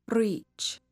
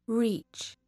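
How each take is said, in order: No difference in how they are said.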